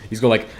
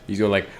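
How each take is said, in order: Both takes have the same delivery.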